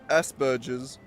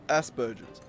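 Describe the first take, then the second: First: The word is said in an Australian way. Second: The word is said in an Australian way.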